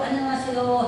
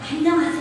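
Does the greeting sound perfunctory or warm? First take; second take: perfunctory; warm. First: The greeting sounds flat and routine. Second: The greeting sounds warm and truly glad. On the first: The greeting is just a formality. "그냥 안녕하세요" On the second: The greeter is really happy to see you. "인사가 정말 반가워서"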